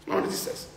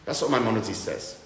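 First: Whisper. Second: Said in the usual way. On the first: Real, not acted. Echo of line 63 whispered.

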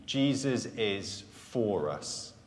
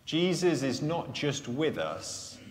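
First: "for" slow and weighted, falling; Jesus is FOR us, settled; stress on for. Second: "with" leaned on, after "not just"; weight the word "with" as the point of the contrast; stress on with. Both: Shown as a demonstration.

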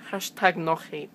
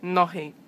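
First: "Hashtag no hate" with a harsh rasped H in "hate"; "hate" said as a throaty "xe"; overdone H. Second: Said in the usual way. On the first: Shown as a demonstration. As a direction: push the H of "hate" out too hard. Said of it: "I just put too much emphasis on the H". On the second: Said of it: "too much emphasis on the H".

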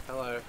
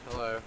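No difference in how they are said.

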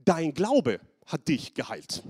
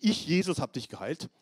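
First: Glaube langsam und fest hervorgehoben; Betonung auf Glaube. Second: Said in the usual way. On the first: Shown as a demonstration. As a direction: lass das Wort Glaube langsam tragen. (Glaube betont, getragen gesprochen) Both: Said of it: "Interessant, nicht".

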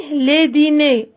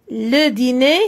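First: "les dîners" with stress on "les" and a falling tune; teacher contrasting singular and plural; plural form. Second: "Le dîner" with a rising tune on "dîner"; teacher contrasting singular and plural; singular form. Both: Shown as a demonstration. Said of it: "singulier, pluriel".

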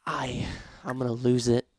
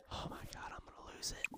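First: Said in the usual way. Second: Exasperated whisper. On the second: Real, not acted. Gamer at the end of their patience with the sims, whisper. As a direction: whisper it, at the end of your rope. Whispered after sandwich vanishes.

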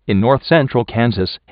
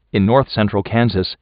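Both takes have the same delivery.

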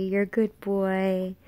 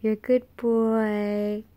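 First: Soothing praise. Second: Drawn-out, slow dog-praise voice; sing-song dog praise. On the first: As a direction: reassure the pup gently. Praising the dog. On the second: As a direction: coo to the pup. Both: Real, not acted.

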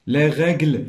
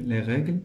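First: "règles" projected, with the è held clearly; firm word model. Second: Said in the usual way. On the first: Shown as a demonstration. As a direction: present "règles" firmly to the class. Word modelled, then repeated plainly. ("règles" بصوت واضح، مع تمديد è)

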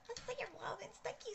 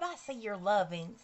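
First: High, soft sing-song repeat of see. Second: Said in the usual way. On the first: Real, not acted. Thanking viewers for likes.

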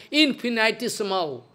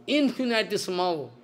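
Both takes have the same delivery.

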